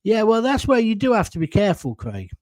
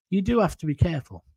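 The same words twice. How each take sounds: First: Said in the usual way. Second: "do" leaned on, brisk and fast; stress on do. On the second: Real, not acted. Streamer repeating his warning to viewers, stressing "do". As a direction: hit "do" and rattle the rest off quickly.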